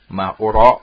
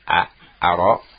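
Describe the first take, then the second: First: The verb begins with a 'u' vowel. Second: The verb begins with an 'a' vowel. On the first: I do not think. "kalau didomahkan" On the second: I do not know. "Difathahkan hamzahnya"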